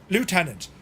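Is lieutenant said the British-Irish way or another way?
another way. It is said the way outsiders say it. This is how the listener might say it. "you might say Lieutenant"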